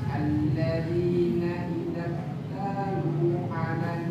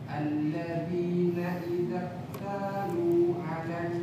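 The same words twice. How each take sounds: Both takes have the same delivery.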